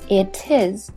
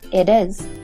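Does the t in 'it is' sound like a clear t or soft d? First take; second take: clear t; soft d. First: The t is a clear, separate t sound. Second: The t is linked as a short d sound. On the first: The speaker calls it wrong. "不是it is" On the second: The speaker calls it right. "而是会变成it is"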